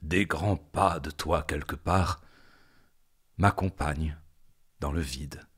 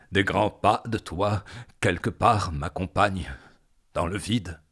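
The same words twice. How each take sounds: First: Said in the usual way. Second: Intense, insistent declaiming; more forceful. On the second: Acted. Poet followed by footsteps in the void, insistent. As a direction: drive the phrase on with mounting force.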